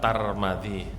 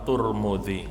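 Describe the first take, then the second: First: The first two syllables have an a vowel. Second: The first two syllables have a u vowel. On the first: "Kalau taknya di fathah, mimnya di fathah" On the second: "Kalau taknya itu di dhammah, mimnya di dhammah"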